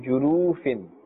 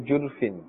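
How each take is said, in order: First: The vowel after the r is drawn out long. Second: The vowel after the r is dropped. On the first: "But don't pull as well... Then you'll be adding a waw" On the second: "Be careful not to say jurfin"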